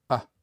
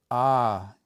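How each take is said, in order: First: A very short "Ah". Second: A long, held, open "ah". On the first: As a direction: cut the vowel of "Ah" short. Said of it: "make that short A sound". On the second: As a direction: stretch out the vowel of "ah". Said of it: "That long A at the end". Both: Shown as a demonstration.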